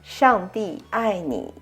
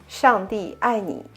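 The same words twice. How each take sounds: First: The phrase is said slowly. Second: The phrase is said at natural conversational speed.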